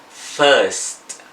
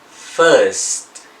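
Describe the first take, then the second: The two takes are said the same way.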